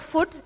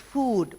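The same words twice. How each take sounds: First: The vowel is said short and clipped. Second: The vowel is said long and drawn out. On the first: The speaker calls it wrong. "You should not say food" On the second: The speaker calls it right. "because it has two O's"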